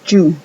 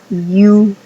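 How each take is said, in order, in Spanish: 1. Empieza con un sonido más fuerte, parecido a la j. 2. Empieza con un sonido y suave, deslizante. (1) "que a you" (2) "La Y suena más a you"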